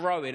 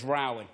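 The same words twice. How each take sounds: First: Said in the usual way. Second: "rowing" said to rhyme with "ploughing"; misread rowing. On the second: Retold or imitated. Comic admitting he misread a hobby, "rowing" rhyming with "ploughing". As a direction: say "rowing" with an OW as in "cow". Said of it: "I read it as rowing".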